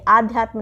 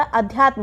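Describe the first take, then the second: First: आध्यात्म with long first 'aa'; wrong long vowel. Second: अध्यात्म with short first 'a'; correct short vowel. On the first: Teacher rejecting a mistake, long 'aa' starting आध्यात्म. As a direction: open आध्यात्म on a full 'aa'. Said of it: "ये आध्यात्म नहीं होगा". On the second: Teacher giving correct form, short 'a' starting अध्यात्म. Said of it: "छोटा आ रहेगा". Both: Shown as a demonstration.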